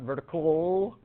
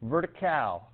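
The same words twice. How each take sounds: First: The last syllable is a reduced 'cle' like pickle. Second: The last syllable is a full 'cal' like pal. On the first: The speaker calls it wrong. "not vertical. It's not a C L E. It's not a popsicle" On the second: The speaker calls it right. "like it's your pal"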